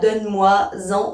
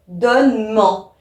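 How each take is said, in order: First: The pronoun is said in full before 'en'. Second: The pronoun is shortened and joined to 'en'. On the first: The speaker calls it wrong. "surtout pas donne-moi-en, oh, affreux" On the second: The speaker calls it right. "où là on va dire donne-m'en"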